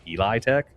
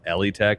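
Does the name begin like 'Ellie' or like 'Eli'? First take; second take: Eli; Ellie. First: The name begins like 'Eli'. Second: The name begins like 'Ellie'. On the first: The speaker calls it right. "It's Eli Tech" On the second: The speaker calls it wrong. "it's actually not Ellie Tech. Everybody's been pronouncing it wrong"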